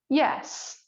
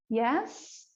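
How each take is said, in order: First: The yes sounds clear and firm. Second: The yes sounds unsure and hesitant. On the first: "a clear, firm yes" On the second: "a hesitant yes"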